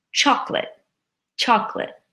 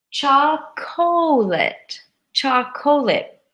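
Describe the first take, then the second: First: Chocolate said CHOC-lit, two syllables, quickly; squished chocolate. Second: Chocolate slowly as CHOC-oh-late, three syllables; spelling pronunciation. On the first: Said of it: "We squish it". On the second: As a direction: stretch chocolate out, every letter said. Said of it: "it looks like". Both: Shown as a demonstration.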